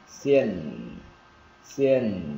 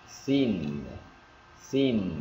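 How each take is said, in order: First: XIÊN falling, with short lax vowel and held N; first variant. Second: XIN with long tense "ee" and held N; second variant. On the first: Teacher giving first of two readings, short vowel in XIÊN. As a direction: model "sin" with a humming final N. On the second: Teacher giving the other reading, long "ee" in XIN. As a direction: stretch XIN like "seen", humming the N. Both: Shown as a demonstration. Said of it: "chữ này có hai cách đọc".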